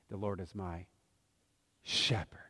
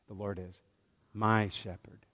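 First: The stress is on "my". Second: The same.

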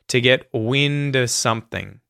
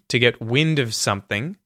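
First: The word 'of' is reduced to a schwa. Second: The word 'of' ends with a clear v sound. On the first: "or you can just not say the V sound, the V sound, and use a schwa sound instead" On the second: "you can say of as either of with the V sound at the end there"

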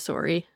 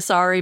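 First: Sorry is said with a Canadian pronunciation. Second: Sorry is said with an American pronunciation. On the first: "I think I'm back to sorry" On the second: "your sorry's kind of got more American"

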